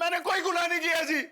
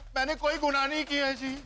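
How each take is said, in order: First: It is said loudly, almost shouted. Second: It is said softly and calmly.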